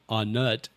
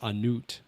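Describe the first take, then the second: First: The name is said with English-style pronunciation. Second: The name is said with Thai-style pronunciation. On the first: The speaker calls it wrong. "It's not Anut" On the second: The speaker calls it right. "it's Anut"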